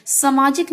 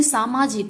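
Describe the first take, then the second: First: सामाजिक said "samaajik", first A short; shortened vowel. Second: Said in the usual way. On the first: Shown as a demonstration. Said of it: "नहीं सामाजिक होता है". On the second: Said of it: "सामाजिक होता है".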